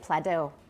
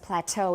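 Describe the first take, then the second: First: The stress is on the first syllable. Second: The stress is on the second syllable. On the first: The speaker calls it wrong. "We wouldn't say" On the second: The speaker calls it right. "The second syllable stress"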